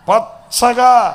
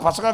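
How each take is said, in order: First: The word is said with strong pressed emphasis. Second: The word is said plainly without extra force. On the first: The speaker calls it right. "కొంచెం అక్కడ నొక్కి చెప్పండి" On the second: The speaker calls it wrong. "పచ్చగా పచ్చగా కాదు"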